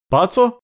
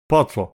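First: "Пацо" as a high, rising question; questioning echo. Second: Said in the usual way. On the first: Acted. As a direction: echo "Пацо" high-pitched, asking what it means. Prisoner echoes it as a question.

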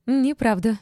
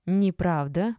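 First: High, loud denial; furious yell. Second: Mild objection, close to normal voice; objection from behind. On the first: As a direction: yell the contradiction straight out. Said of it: "заорала Ольга". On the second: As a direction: pipe up to contradict, without shouting. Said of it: "подала сзади голос одна из старушек". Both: A narrator's reading.

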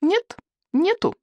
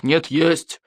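First: Put-on very high, slow childish objection; stubborn high boy voice; boy contradicting. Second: Firm adult retort in usual register; stubborn grown-up contradiction; king insisting back. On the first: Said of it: "возразил Икинг". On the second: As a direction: answer back firmly without raising pitch. King contradicts boy in quarrel. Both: A narrator's reading.

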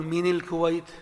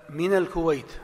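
First: من الكويت said as mini lkuwayt, wrong vowel; deliberately wrong i after من; خطأ: مِنِ الكويت; wrong kasra shown. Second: من الكويت said as mina lkuwayt; a clear a after من; صواب: مِنَ الكويت; correct fatha. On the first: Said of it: "ما تقول". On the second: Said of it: "لا، من الكويت". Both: Shown as a demonstration.

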